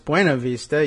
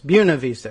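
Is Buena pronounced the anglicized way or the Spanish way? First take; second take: Spanish; anglicized. First: Buena is given its Spanish pronunciation. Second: Buena is given an anglicized local pronunciation. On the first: This follows the name's Spanish origin. The speaker calls it right. "It's Buena Vista" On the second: This is how the town's residents say it. The speaker calls it wrong. "they'll say it's Buena Vista. Well, it's not"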